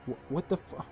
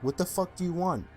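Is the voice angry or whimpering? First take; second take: whimpering; angry. First: It is said as a frightened, stuttering whimper. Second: It is said in an angry, commanding tone.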